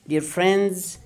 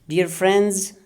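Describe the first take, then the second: The two takes are said the same way.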